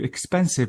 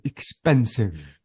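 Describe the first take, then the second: First: Said in the usual way. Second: Expensive with the middle syllable pen pushed a little; stress on the second syllable. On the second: Shown as a demonstration. Teacher shows students where expensive is stressed. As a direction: gently lean on the pen of expensive. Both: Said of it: "notice how the stress is on".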